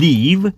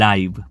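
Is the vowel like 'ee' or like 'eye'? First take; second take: ee; eye. First: The vowel sounds like 'ee'. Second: The vowel sounds like 'eye'. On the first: "આનો ઉચ્ચાર એક થાય છે લીવ" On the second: "અને બીજો પણ એક ઉચ્ચાર છે આનો, એ છે લાઈવ"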